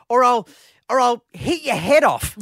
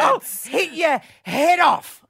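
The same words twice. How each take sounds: First: Laughing through a retold threat; laughing quote. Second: Slow, hammed-up shouted threat, higher; mock shout. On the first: Host retelling his wife's threat to the old lady, laughing. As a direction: giggle out the wife's lame threat. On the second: Host mimicking his wife yelling at the old lady, mock shouting. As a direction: yell it slowly like a furious mum. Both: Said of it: "all she could come up with".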